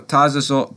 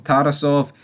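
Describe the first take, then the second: First: Tarasov, slurred as "Tazasov" with a z in the middle and no final v; Tarasov, tripped over and clipped short, the r turned to z; Tarasov, first botched try at the Russian name; fumbled name. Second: Tarasov, said carefully as "TA-ra-sov" with a clear r and a final v; Tarasov, fixed on the second try with every sound in place; Tarasov, the corrected Russian name, said clearly. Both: Real, not acted.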